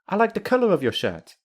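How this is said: The voice simply falls at the end. The speaker genuinely likes it, nothing more. "say the sentence with the falling intonation"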